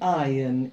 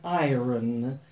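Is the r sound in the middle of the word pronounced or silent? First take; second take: silent; pronounced. First: No r sound is heard after the first vowel. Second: An r sound is heard after the first vowel. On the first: The speaker calls it right. "It's an iron, even though the spelling is iron" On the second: The speaker calls it wrong. "It is not an iron"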